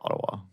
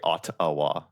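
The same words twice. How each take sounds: First: The middle consonant is a soft D sound. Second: The middle consonant is a crisp, clear T. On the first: This is how the speaker normally says it. "I say like a D, like Ottawa" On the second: This is the version the listener expected. "she wanted me to say Ottawa"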